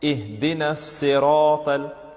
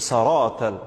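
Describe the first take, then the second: First: The first vowel is an 'i' sound. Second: The first vowel is an 'a' sound. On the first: The speaker calls it right. "with a kasra over the letter sad" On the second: The speaker calls it wrong. "saratal, that's wrong"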